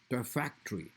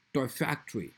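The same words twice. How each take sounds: First: "toy factory" with toy stressed, factory softer. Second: "toy factory" with factory stressed, toy light. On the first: Teacher showing the compound stress to students, toy stressed. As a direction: hit toy first. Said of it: "toy will be stressed". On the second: Teacher showing the phrase stress to students, factory stressed. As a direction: lean on factory. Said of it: "toy will not be stressed, factory will be stressed". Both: Shown as a demonstration.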